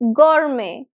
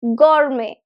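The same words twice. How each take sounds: The two takes are said the same way.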